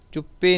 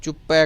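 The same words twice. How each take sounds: First: ਚੁੱਪੇ ending in closed "e"; wrong e ending. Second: ਚੁੱਪੈ with open "ai" at the end; correct ai ending. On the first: Teacher showing what not to say, e ending. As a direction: say ਚੁੱਪੇ with "pay" at the end. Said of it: "ਚੁੱਪੇ ਨਹੀਂ ਕਹਿਣਾ". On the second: Teacher giving the right word, open ai ending. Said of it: "ਚੁੱਪੈ ਕਹਿਣਾ ਹੈ". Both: Shown as a demonstration.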